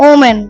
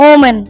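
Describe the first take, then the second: The two takes are said the same way.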